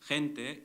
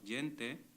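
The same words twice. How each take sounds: First: It is said with the modern Mexican Spanish pronunciation. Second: It is said with the traditional Ladino pronunciation.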